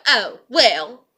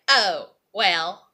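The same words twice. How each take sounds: First: Mocking shrug, pushed harder. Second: Mocking shrug. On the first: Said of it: "y'all be like". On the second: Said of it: "she's just like".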